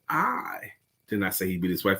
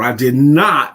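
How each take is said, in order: First: The stress falls on the word I. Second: The stress falls on the word not. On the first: The speaker personally did not say it. "That means me in specific" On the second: It is a firm denial. "It's an emphatic denial"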